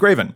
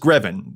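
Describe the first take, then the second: First: The name does not rhyme with 'seven'. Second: The name rhymes with 'seven'. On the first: This is the speaker's own habit. "apparently I say Graven" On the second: This is how most people say it. "Everyone says Greven, rhymes with seven"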